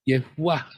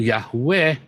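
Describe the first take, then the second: First: The first syllable has an 'e' vowel: yeh-wah. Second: The first syllable has an 'a' vowel: yah-weh. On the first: The speaker calls it right. "Yehwah, saudara yang benar" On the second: The speaker calls it wrong. "Bukan Yahweh"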